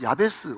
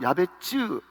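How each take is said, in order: First: The name ends with a plain s sound. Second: The name ends with a ts sound. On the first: The speaker calls it wrong. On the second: The speaker calls it right.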